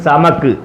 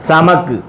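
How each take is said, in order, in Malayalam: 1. ഈ വാക്ക് അവസാനം ഒരു വെറും വ്യഞ്ജനത്തിൽ നിൽക്കുന്നു. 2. ഈ വാക്ക് അവസാനം ഒരു വെറും വ്യഞ്ജനത്തിൽ നിൽക്കുന്നു.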